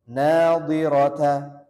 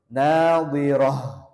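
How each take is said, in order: First: The word ends with a t sound and vowel. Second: The word ends with an h sound. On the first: The reading continues without a stop. "Tetap dibaca ta" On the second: The reading stops at this word. "tak marbutohnya berubah menjadi hak domir"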